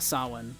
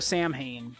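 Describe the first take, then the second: First: The middle consonant sounds like a w. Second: The middle consonant sounds like an h. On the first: The speaker calls it right. "That H is like a W" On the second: The speaker calls it wrong. "not how you were pronouncing it in your head"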